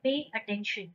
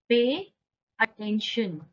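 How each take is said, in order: First: Said in the usual way. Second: "pay", a clear pause, then "attention"; word-by-word model. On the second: Shown as a demonstration. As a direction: split "pay" from "attention" for learners. Teacher repeats it word by word.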